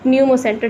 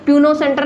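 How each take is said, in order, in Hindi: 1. शब्द की शुरुआत N की आवाज़ से होती है, P से नहीं। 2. शब्द की शुरुआत में P की आवाज़ सुनाई देती है। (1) "पी साइलेंट होता है" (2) "इधर पी है तो प्यूनो सेंटर नहीं"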